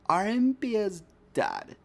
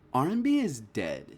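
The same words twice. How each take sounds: First: It is said in a put-on imitating voice. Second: It is said in the speaker's normal voice.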